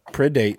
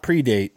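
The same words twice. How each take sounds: First: The first syllable sounds like 'pred'. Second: The first syllable sounds like 'pre'. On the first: It means to hunt as a predator. The speaker calls it right. "but predate, like being a predator" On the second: It means to come before in time. The speaker calls it wrong. "not predate"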